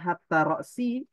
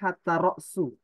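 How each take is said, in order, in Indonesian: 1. Kata kedua berakhir dengan vokal i. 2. Kata kedua berakhir dengan vokal u. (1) "berarti hatta ini huruf jar" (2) "ro'su di situ dijadikan mubtada"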